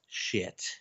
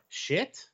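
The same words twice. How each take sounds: First: The voice falls at the end like a statement. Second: The voice rises at the end like a question. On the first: It is stated as a plain fact. "I stopped saying it as a question a long time ago" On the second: It is asked as a doubtful question. "Or shit?"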